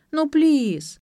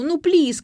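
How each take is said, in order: First: High whiny pleading; whining. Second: High whiny plea; whining. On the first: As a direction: beg like a spoiled girl. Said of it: "начала упрашивать". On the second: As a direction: drag out the please. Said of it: "заныла". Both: A narrator's reading.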